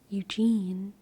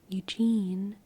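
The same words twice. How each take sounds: First: The second syllable is stressed, the first unstressed. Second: The second syllable is stressed, the first unstressed.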